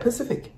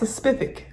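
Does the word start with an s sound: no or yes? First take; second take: no; yes. First: The word starts without an s sound. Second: The word starts with an s sound. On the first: "I don't know how to say it" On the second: "Because it's spelled with an S"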